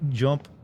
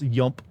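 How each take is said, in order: First: The word begins with a J sound. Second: The word begins with a Y sound. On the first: The speaker calls it wrong. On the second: The speaker calls it right.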